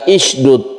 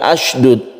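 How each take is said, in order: First: The word begins with an i vowel. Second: The word begins with an a vowel. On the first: "bukan isydud" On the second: "bukan asydud"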